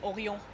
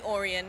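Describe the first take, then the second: First: The name is said with a French accent. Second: The name is said with an English accent. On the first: "with a French accent, it's Orion" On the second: "it can be Orion"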